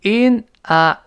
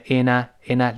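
First: "in a" slow, as two separate words; slow, separated "in ... a"; unlinked IN A. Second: "in a" run together as "ina"; natural joined-up "in a", twice; linked IN A. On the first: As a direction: pull "in" and "a" apart, louder vowels. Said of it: "自然读成in a". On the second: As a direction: link the n of "in" straight onto "a". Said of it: "连在一块儿". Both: Shown as a demonstration.

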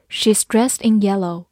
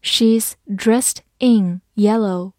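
First: Said in the usual way. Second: "She's dressed in yellow" slowly, word by word; slow reading. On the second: Shown as a demonstration. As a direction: pause after each word. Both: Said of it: "慢慢来读".

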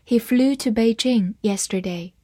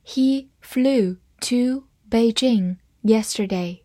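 First: Said in the usual way. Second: Slow, careful read-aloud. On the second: Shown as a demonstration. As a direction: read it slowly for the class. (慢速朗读) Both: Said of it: "我们慢慢读一遍".

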